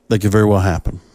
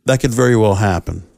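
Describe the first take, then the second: No difference in how they are said.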